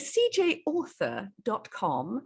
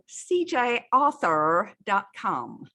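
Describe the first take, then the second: First: It is said in a British accent. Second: It is said in an American accent.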